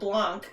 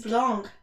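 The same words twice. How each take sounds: First: The final C sound is clearly pronounced. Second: The final C sound is nearly silent. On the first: The speaker calls it wrong. "that's not how you say it" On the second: The speaker calls it right. "you barely pronounce the C"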